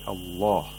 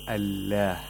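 First: The L is thick, with the tongue root raised. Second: The L is thin, with the tongue root low. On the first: The speaker calls it right. "We say Allah" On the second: The speaker calls it wrong. "You don't say Allah"

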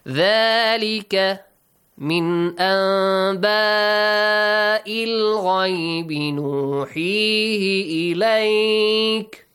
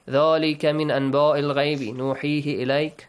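First: The letters sound full, with heavy resonant sounds. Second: The letters sound plain, without heavy resonant sounds. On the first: The speaker calls it right. "these sounds are very beautiful" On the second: The speaker calls it wrong. "If you read it this way, this doesn't create that beauty"

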